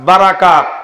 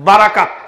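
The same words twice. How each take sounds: Both takes have the same delivery.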